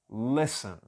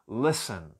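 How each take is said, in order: No difference in how they are said.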